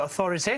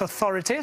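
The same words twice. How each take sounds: First: "authority" stressed on its first syllable, AU. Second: "authority" stressed on its second syllable, THO. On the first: Retold or imitated. Coach imitates the president's misplaced English accent, stress on first syllable of "authority". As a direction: put the accent on the opening AU of "authority". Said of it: "il accentue sur la première syllabe". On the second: Shown as a demonstration. Coach shows how authority is pronounced, stress on second syllable of "authority". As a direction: put the accent on THO in "authority". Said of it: "on the second syllable".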